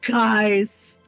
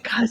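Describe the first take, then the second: First: The word is said loudly, not quiet at all. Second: The word is said quietly, like a whisper. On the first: It is how the speaker actually sounded. "in reality, it's like" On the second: It is how the speaker imagined sounding. "this is in my head what it sounds like"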